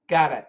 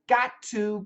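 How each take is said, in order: First: The T is flapped, sounding close to a D. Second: The T sounds are held together, with a full 'to'. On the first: "It's a D, D sound" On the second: "put the T's together"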